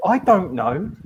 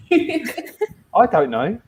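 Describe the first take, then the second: First: Said in the usual way. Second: Slow, laughing through the words. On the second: Real, not acted. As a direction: giggle it out slowly. Teasing banter about paladin.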